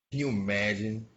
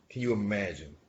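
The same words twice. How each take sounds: The two takes are said the same way.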